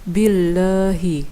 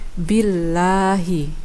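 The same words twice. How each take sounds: First: The 'a' vowel is muffled, sounding like e or o. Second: The 'a' vowel is said with a wide-open mouth. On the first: The speaker calls it wrong. "bukan billahi" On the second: The speaker calls it right. "mulutnya harus dibuka lagi agar bacaannya seperti ini"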